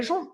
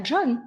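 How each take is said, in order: First: John said as French "Jon"; John with a French nasal vowel; Frenchified John. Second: John with English "dj" onset; John as "Djonn", not Frenchified. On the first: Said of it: "C'est bien John". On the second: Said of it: "Personne ne lui dit". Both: Shown as a demonstration.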